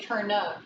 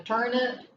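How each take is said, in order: First: "turn up" with an UP vowel in the second syllable; alternative pronunciation. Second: "turnip" with a short ih in the second syllable; corrected pronunciation. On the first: Teacher querying a pronunciation, "turn up" with an uh. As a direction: end "turn up" on uh, not ih. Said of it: "I don't know if people say". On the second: Teacher correcting the word for pupils, "turnip" ending in ip. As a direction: end "turnip" on ip, not up. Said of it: "No, turnip". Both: Shown as a demonstration.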